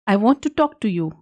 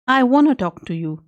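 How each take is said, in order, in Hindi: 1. 'Want to' धीरे बोलने पर दो पूरे शब्दों की तरह बोला जाता है। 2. 'Want to' तेज़ बोलने पर मिलकर 'wanna' जैसा बोला जाता है।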